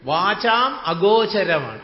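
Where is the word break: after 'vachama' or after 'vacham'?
after vacham. The words split after 'vacham', then 'agocharam'. It means beyond the reach of words. The speaker calls it right.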